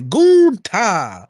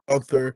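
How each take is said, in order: First: The name ends with a clipped 'ta' sound. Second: The name ends with a full 'ther' sound. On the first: "a little spicy and say Gunta" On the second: "Sometimes it's Gunther"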